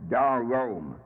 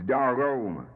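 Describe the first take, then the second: The two takes are said the same way.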